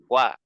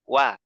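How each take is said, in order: Both takes have the same delivery.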